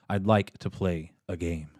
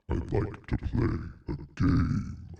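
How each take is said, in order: First: It is said in a normal speaking voice. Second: It is said in an imitation of Saw's voice.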